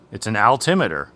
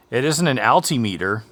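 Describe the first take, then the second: First: Altimeter said as al-TIM-uh-ter; corrected pronunciation. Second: Altimeter said as AL-tee-MEE-ter; long ee in the meter of altimeter; rejected pronunciation. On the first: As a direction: stress the TIM in altimeter, short i. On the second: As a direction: say altimeter as alti plus meter. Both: Shown as a demonstration. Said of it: "however you pronounce it".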